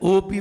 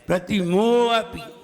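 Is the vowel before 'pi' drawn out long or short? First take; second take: short; long. First: The vowel before the last syllable is kept short. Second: The vowel before the last syllable is drawn out long. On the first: The speaker calls it wrong. "अगर ओपी बोल दिया तो दो ही मात्राएं आई" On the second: The speaker calls it right. "लंबा खींचा जाएगा"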